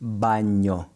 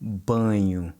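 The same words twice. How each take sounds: First: Baño with the tongue pressed hard, Spanish ñ; baño with a firm Spanish ñ. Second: Banho with a light nasal nh; Portuguese nh. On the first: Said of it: "versus baño in Spanish". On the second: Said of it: "as in the word banho". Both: Shown as a demonstration.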